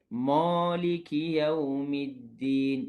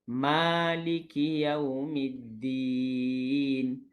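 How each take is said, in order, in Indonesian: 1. Bunyi m dan vokal setelahnya terdengar tebal. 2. Bunyi m dan vokal setelahnya terdengar nipis. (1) "Jangan baca" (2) "Baca dengan"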